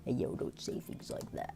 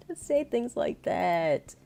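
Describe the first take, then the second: First: Whispered attempt at a very deep voice. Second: Mock protest. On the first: Streamer attempting a deep-voiced man, whispered imitation. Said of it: "I don't even know how to do [name]'s voice". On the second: Reacting to a voice compared with [name]'s, mock protest. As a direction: draw it out high, playfully scandalized. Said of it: "how to do [name]'s voice".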